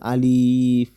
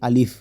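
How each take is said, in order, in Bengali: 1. শব্দটি ধীরে ও টেনে বলা হয়। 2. শব্দটি দ্রুত ও ছোট করে বলা হয়। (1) "এভাবে পড়লে হবে না" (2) "একটু তাড়াতাড়ি করে পড়তে হবে"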